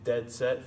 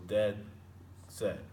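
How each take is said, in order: First: "dead set" slowly, both words stressed; two equal stresses. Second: "dead set" with a pause between the two stressed words; separated equal stresses. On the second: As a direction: split "dead" and "set" into separate beats, lower. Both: Shown as a demonstration. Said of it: "they're two stressed syllables in a row".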